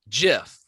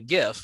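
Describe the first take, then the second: First: It starts with a j sound. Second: It starts with a hard g sound. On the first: The speaker calls it right. "is pronounced GIF, like the peanut butter" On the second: The speaker calls it wrong. "I I used to call it a GIF"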